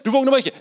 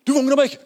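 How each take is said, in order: First: High, loud panic with the push on vågner; frantic cry, leaning on vågner; panicked. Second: High, loud panic with the push on meg; frantic cry, leaning on meg; panicked. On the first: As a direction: yelp it, hitting vågner hard. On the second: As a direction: yelp it, stressing meg, scared of punishment. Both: Retold or imitated. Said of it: "stresset, løper og henter meg".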